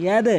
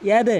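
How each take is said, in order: No difference in how they are said.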